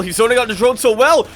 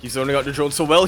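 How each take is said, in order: First: High, loud, fast caster yell; quick, thrilled exclamation; mounting excitement. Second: Said in the usual way. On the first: Real, not acted. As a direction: shout the praise in rising excitement. Repeats praise with mounting excitement.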